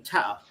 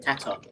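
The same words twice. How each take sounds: First: The T sound is dropped. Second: The T sound is clearly pronounced. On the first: This is casual working-class speech. "We say tatter" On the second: This is proper speech. "instead of saying tatter"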